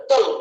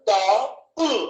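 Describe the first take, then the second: First: Said in the usual way. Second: డల్ broken as "డా... ఉల్"; డల్ wrongly split, డా then ఉల్; split into two parts. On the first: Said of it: "ఒకేసారి పలుకుతున్నామా". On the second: Shown as a demonstration. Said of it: "లేకపోతే డల్ అని ఒకేసారి పలుకుతున్నామా".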